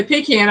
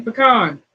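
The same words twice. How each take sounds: First: "pecan" said PEE-can, rhyming with man. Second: "pecan" said puh-KAHN. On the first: Retold or imitated. Host quoting other people's way, PEE-can. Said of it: "I hear people say pecan". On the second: Shown as a demonstration. Host correcting people after spelling it, puh-KAHN. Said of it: "it's spelled P E C A N".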